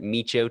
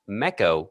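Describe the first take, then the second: First: The name does not sound like echo. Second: The name sounds like echo with M added. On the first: "you can pronounce it Micho too if you want" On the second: "which is just echo with an M in front of it"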